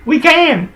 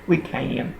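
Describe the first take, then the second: First: Suddenly squeaky high, thrilled; a thrilled high yelp about the view; excited squeal. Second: Said in the usual way. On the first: Real, not acted. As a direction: shoot way up in pitch with delight.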